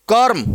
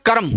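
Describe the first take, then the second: First: कर्म said "कर्म", र joined straight to म; the right way: कर्म with no vowel after र; correct reading. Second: कर्म read as "करम" with an extra a between र and म; the common mistake, कर्म said as "करम"; wrong reading. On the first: (कर्म का सही उच्चारण, र और म जुड़े हुए) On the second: (कर्म को "करम" बोलना, गलत उच्चारण) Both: Shown as a demonstration. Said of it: "कर्म नहीं".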